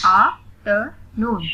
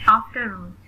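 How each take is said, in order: First: "आफ्टरनून" slowly in three separate beats; split into syllables. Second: Said in the usual way. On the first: Shown as a demonstration. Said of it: "split in the syllables". ("आफ्टरनून" को रुक-रुककर syllables में) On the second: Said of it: "read the word".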